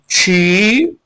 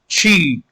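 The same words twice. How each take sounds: First: The vowel is drawn out long. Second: The vowel is short. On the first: It means rib. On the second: It means life.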